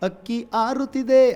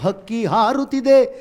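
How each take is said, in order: First: The first word starts with a vowel, no h. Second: The first word starts with an h sound. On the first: It is the rural way of saying it. "ಅದೇ ಗ್ರಾಮ್ಯಲ್ಲಿ ಬಂದಾಗ ಇದನ್ನು ಬಳಸ್ಬೋದು" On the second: It is the standard form. "ಸರಿಯಾದ ಪದ"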